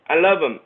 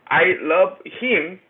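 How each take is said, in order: First: The words are slurred and run together. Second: The words are said clearly and fully.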